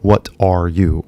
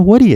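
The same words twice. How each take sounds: First: Said in the usual way. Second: "What are you" squeezed to "Whaddaya", high and loud; real casual. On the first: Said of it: "教科書的な英語は". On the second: Shown as a demonstration. Teacher shows how everyone really says "What are you". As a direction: blurt "What are you" as one quick high word. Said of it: "って言ってんの".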